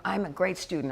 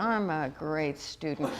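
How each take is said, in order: First: Said in the usual way. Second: Slow, low and soft, each word stretched; drawn-out affirmation. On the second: Shown as a demonstration. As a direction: savor the line slowly for a laugh. Repeats affirmation comically, audience laughs.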